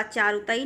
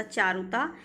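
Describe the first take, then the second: First: चारुता ही run together with an extra final ee; wrong form चारुताई. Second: चारुता ending on long taa; correct form चारुता. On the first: Teacher rejects a misspelling, चारुता ही with ee ending. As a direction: add an ई sound after चारुता. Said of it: "नहीं होता". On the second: Teacher corrects the word for students, चारुता ending in taa. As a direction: say चारुता with no ee after it. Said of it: "चारुता ही नहीं होता". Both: Shown as a demonstration.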